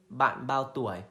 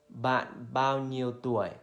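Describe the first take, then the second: First: The word nhiêu is dropped in fast speech. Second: Every word is said, including nhiêu.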